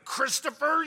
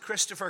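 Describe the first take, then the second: First: The name is squeezed out of a tight throat. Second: The name is said in a relaxed voice. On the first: The child is in serious trouble. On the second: The child is not in trouble.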